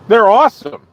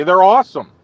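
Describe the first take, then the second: First: Said again, louder and more insistent; emphatic repeat. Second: Said in the usual way. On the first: Real, not acted. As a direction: insist on "awesome" with extra force.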